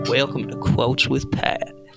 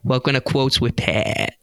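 First: It is said in a Southern accent. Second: It is said in a Boston accent.

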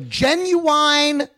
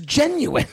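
First: The last syllable rhymes with wine. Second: The last syllable is a short in sound. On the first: This is the local Southern way of saying it. The speaker calls it wrong. "like the R&B singer" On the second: This is the standard way of saying it. The speaker calls it right. "the word is genuine"

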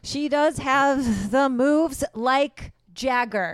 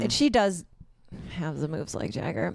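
First: It is said more loudly. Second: It is said at normal, quieter volume.

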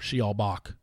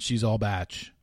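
First: The last word is said like 'bock'. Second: The last word is said like 'batch'. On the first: The name refers to a classical composer. The speaker calls it wrong. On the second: The name refers to The Bachelor. The speaker calls it right.

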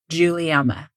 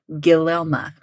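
First: The name begins with a J sound. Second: The name begins with a hard G sound. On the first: The speaker calls it right. "That G is like a J" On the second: The speaker calls it wrong. "I would definitely have pronounced that like Guilielma or something"

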